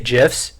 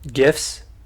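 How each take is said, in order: First: The word begins with a J sound. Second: The word begins with a hard G sound. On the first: It follows the creator's pronunciation. "I say GIFs. ... it's pronounced like the peanut butter" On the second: Most people say it this way. "people say um"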